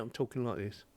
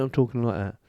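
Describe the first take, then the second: First: Slightly softer, a bit farther from the mic; mic distance demo. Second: Mic distance demo. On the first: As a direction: lean back from the mic as you say it. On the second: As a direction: lean in to the mic. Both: Shown as a demonstration.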